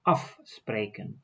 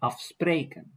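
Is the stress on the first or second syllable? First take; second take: first; second. First: The stress is on the first syllable. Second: The stress is on the second syllable. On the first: The speaker calls it right. "I say afspreken" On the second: The speaker calls it wrong. "I don't say afspreken"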